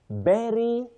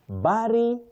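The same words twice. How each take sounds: First: The first vowel sounds like 'be'. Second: The first vowel sounds like 'ba'. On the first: The speaker calls it right. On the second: The speaker calls it wrong.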